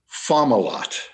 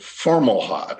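First: No r sound follows the first vowel. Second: An r sound is added after the first vowel. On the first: The speaker calls it right. "the pronunciation that I use is Fomalhaut" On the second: The speaker calls it wrong. "insert an R into this star's name"

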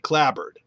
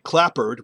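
First: The P sound is dropped, only B heard. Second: The P sound is clearly pronounced. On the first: The speaker calls it right. "we say clabbered" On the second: The speaker calls it wrong. "We don't say clappered"

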